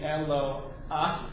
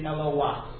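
First: The two vowels are said without a w glide. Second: A w glide links the two vowels. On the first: "it could either be Elo Ah" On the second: "or it could be Elowah, which is probably the correct pronunciation"

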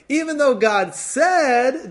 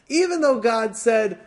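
First: The stress falls on the word "said". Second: The stress falls on "even though", not "said". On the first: Only saying, not the deeper programming, is meant. The speaker calls it right. "Let's try that again" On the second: What was said is dismissed as unimportant. The speaker calls it wrong. "I didn't emphasize that right"

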